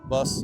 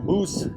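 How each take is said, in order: First: It is said with a plain English pronunciation. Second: It is said with a local Italian pronunciation.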